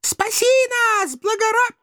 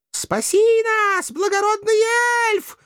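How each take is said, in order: First: Very high damsel wail breaking off mid-word; interrupted high-pitched maiden plea; pleading, cut off. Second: Very high, slow damsel wail; pleading. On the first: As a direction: start begging, then stop abruptly. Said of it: "стушевались нерейды". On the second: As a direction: beg for rescue in a thin maiden voice. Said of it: "взмолились мокрохвостки". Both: A narrator's reading.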